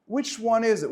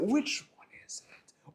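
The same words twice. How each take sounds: First: Said in the usual way. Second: Hushed whispered repeat, slower; breathy conspiratorial whisper to the crowd. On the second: Shown as a demonstration. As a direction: whisper it like a secret question. Asks, then repeats whispered.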